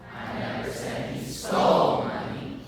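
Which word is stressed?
stole. The stress is on stole.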